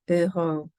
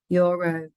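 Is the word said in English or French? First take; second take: French; English. First: It is said with French pronunciation. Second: It is said with English pronunciation. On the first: "and then the target language" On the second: "the English pronunciation of the word"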